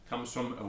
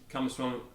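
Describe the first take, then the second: The two takes are said the same way.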